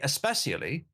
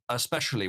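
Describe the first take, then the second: First: The middle consonant is an 's' sound. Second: The middle consonant is an 'sh' sound. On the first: People would laugh at it. "if you tried to say especially, you would be kicked in the face" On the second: It sounds normal. "The normal way of pronouncing especially is especially with like an S H sound"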